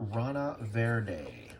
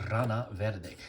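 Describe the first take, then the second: First: The name is said with English sounds. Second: The name is said with Spanish sounds.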